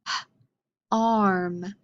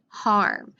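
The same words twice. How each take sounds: First: HARM split as "h-, arm" with a gap; sounded out. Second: Said in the usual way. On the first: Shown as a demonstration. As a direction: say a breath-like h-, pause, then arm. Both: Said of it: "Any words that start with".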